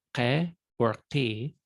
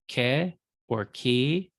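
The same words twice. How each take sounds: First: "ke or ki" with both Ks popped in the back of the throat; guttural Q. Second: Said in the usual way. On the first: Shown as a demonstration. Teacher going down the chart for students, guttural "ke or ki". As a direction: turn the Ks of "ke or ki" into guttural Qs. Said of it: "kind of a pop in the back of the throat". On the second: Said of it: "common to Semitic languages, but we don't".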